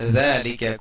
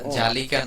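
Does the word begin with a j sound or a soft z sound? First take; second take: soft z; j sound. First: The word begins with a soft z sound. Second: The word begins with a hard j sound. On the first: The speaker calls it right. "আরবি যেহেতু জাল নরম হবে" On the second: The speaker calls it wrong. "জালিকা না"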